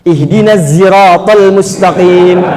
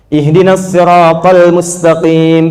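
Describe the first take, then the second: First: The word 'shiratal' starts with a z sound. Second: The word 'shiratal' starts with an emphatic s. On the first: The speaker calls it right. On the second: The speaker calls it wrong. "pakai shot"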